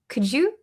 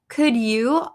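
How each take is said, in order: First: The words are run together like couldja. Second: Both words are pronounced fully and separately.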